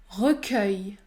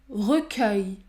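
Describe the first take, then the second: The two takes are said the same way.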